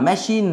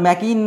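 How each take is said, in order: First: The middle consonant is an SH sound. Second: The middle consonant is a K sound. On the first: The speaker calls it right. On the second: The speaker calls it wrong.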